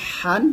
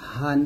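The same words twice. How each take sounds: First: হান with a tight, pressed throat h; pressed han. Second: Said in the usual way. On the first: Shown as a demonstration. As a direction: squeeze the h of হান from mid-throat. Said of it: "এটা চাপ দিয়ে বলতে হবে". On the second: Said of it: "এটা normal বলতে হবে".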